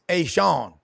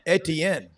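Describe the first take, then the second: First: The name is said the Cajun way. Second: The name is said the usual non-Cajun way. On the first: The speaker calls it right. "they want to give the Cajun pronunciation" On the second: The speaker calls it wrong. "They say it's not Etienne"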